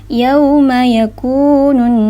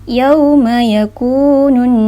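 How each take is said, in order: Both takes have the same delivery.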